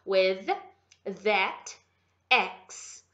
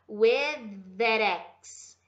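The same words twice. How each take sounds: First: Both th sounds are pronounced separately. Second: The two th sounds merge into one. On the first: The speaker calls it wrong. "a gente quer fazer cada um separado" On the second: The speaker calls it right. "o with do T H a gente já junta com o that"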